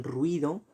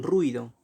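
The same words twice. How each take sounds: First: "ruido" with u and i glided into one syllable; ruido as diphthong. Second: "ruido" with u and i as separate vowels; ruido as hiatus. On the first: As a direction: say "ruido" as RWI-do, two syllables. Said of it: "algunas personas que pronuncian ruido". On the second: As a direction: say "ruido" as ru-I-do, three syllables. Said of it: "otras personas que pronuncian ruido". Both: Shown as a demonstration.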